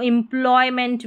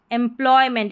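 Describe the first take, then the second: First: एम्प्लॉयमेंट opening on "im"; alternative pronunciation. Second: एम्प्लॉयमेंट opening on "em"; first vowel as "e". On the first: Teacher showing the other allowed reading, एम्प्लॉयमेंट with initial "im". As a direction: say एम्प्लॉयमेंट as "im-ploy-ment". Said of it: "भी पढ़ सकते हैं". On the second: Teacher giving the main reading of the word, एम्प्लॉयमेंट with initial "em". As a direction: say एम्प्लॉयमेंट as "em-ploy-ment". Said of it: "ई को ई या ए". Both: Shown as a demonstration.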